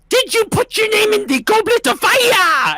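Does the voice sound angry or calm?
angry. It is yelled angrily. "yell out, and I quote ... he just gets so angry"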